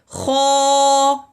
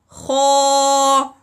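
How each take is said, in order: Both takes have the same delivery.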